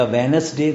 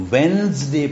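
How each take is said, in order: First: وینسڈے in three syllables, "we-nes-day"; WEDNESDAY as "wenesday". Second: وینسڈے in two syllables, "wenz-day"; WEDNESDAY with silent D. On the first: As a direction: say وینسڈے with an extra vowel after N. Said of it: "تو نہیں پڑھا نا". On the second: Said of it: "پڑھتے ہیں". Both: Shown as a demonstration.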